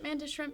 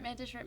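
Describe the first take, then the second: First: It is said slowly. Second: It is said fast.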